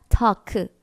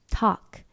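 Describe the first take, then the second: First: An extra vowel sound follows the final k. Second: It ends cleanly on the final k sound. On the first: The speaker calls it wrong. "크 추가해주거나" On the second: The speaker calls it right. "이게 아니라"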